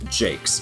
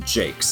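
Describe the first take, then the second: First: The name rhymes with the English word 'rakes'. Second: The same.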